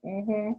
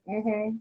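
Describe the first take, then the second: No difference in how they are said.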